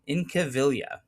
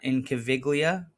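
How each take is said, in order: First: The G sound is left out of the name. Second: The G sound is pronounced in the name. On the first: The speaker calls it right. "no G. Don't pronounce it" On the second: The speaker calls it wrong. "it's not Incaviglia, like I might have said in the video"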